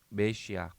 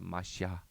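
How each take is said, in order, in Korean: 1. 첫 모음은 'eh' 소리입니다. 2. 첫 모음은 'ah' 소리입니다.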